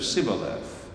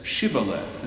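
First: "sibboleth" with a plain s at the start; northern sibboleth. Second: "shibboleth" with a clear sh at the start; Judean shibboleth. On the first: Teacher showing the northern "sibboleth" with s. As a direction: say "sibboleth" with a hissed s, no sh. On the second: Teacher showing the Judean "shibboleth" with sh. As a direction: say "shibboleth" with a full sh sound. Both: Shown as a demonstration. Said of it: "He speaks with a southern accent".

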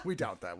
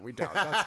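First: Chuckled dry remark; laughing. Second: Louder, with a rising end; louder repeat. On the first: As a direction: say it through a laugh. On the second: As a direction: call it out the second time. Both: Real, not acted.

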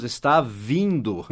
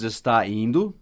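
First: "vindo" drawn out slowly and leaned on; slow down and land on "vindo"; stress on vindo. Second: Said in the usual way. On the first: Shown as a demonstration. Teacher giving students the right form, slow with weight on "vindo". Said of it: "nós dizemos". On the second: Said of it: "nós não dizemos".

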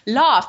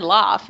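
First: "Laugh" with a broad ah, "lahf"; coach's corrected pronunciation. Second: "laugh" as the pupil's everyday "laff"; pupil's own pronunciation. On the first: Coach correcting Terry, "Laugh" said as "lahf". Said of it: "And he says". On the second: Terry insisting to the coach, "laugh" said as "laff". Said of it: "that's what I said". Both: Retold or imitated.

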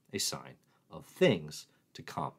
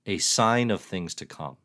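First: Slow, leaning on "things" as innuendo; sly innuendo read; suggestive stress on things. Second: Said in the usual way. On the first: Acted. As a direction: draw out "things" with a knowing hint. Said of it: "Get your head out of the gutter".

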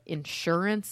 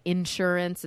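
First: Said in the usual way. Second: Insurance with the weight up front on IN; stress on first syllable. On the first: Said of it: "instead of". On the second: Shown as a demonstration. Explaining a word they say oddly, insurance stressed on IN. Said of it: "I pronounce certain words kind of weird".

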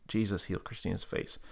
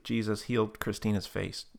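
First: Softer echo of the prompt; repeated prayer line. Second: Measured prayer prompt; prayer leader's line. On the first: Tab repeating the healing prayer, soft echo. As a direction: repeat it back quietly. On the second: Leading Tab to pray for healing, measured prompt. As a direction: offer the phrase to be repeated. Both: Retold or imitated. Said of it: "repeat after me prayer".

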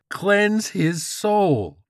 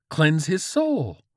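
First: Very slow, very high zealot yell; frenzied command. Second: Slow, high, loud chant; fervent command. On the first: George's frenzy peaks, drawn-out screamed command. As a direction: stretch each word into a holy shout. Repeat builds to holy frenzy. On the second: George readies his attack, fervent raised command. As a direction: cry it out with zeal. George works into holy frenzy. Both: Acted.

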